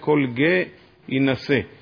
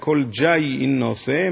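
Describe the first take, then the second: First: The vowel is like 'e' and no y follows. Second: The vowel is like 'a' and a y follows. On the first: This follows the Tiberian reading tradition. "הסגול הוא נשמע כמו צרה, אז ממילא לא שומעים את היוד" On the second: This follows the Babylonian reading tradition. "הסגול הוא נהגה כמו פתח"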